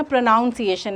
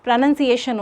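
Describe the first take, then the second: First: प्रोनाउंसिएशन said with "nown" as in noun, pro-NOWN-see-ay-shun; common mispronunciation. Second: प्रोनंसिएशन said with a short "nun", prə-NUN-see-ay-shun; correct pronunciation. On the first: Teacher showing students the common wrong way to say it, prə-NAUN-sieʃən. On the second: Teacher giving students the right way to say it, prə-NƏN-sieʃən. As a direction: say प्रोनंसिएशन right, no "noun" sound in the middle. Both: Shown as a demonstration. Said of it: "कोई बंदा ऐसे बोलता है ना".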